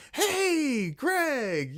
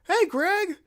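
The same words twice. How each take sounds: First: High, put-on dorky greeting; dorky hey. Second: Much higher, louder dorky hello. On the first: Shown as a demonstration. Calling out to Greg in a dorky high voice. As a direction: call out in a silly high voice. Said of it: "not in that voice". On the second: Retold or imitated. Stopping to greet Greg in a dorky high voice. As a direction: greet him like an awkward dork. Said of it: "an equally dorkier voice".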